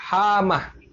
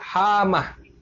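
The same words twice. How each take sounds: First: The m sound is single and short. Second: The m sound is single and short.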